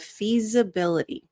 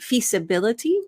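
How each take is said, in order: First: The middle consonant is a buzzing z sound. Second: The middle consonant is a hissing s sound. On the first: The speaker calls it right. "The S in feasibility sounds more like a Z" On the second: The speaker calls it wrong. "that's going to sound accented"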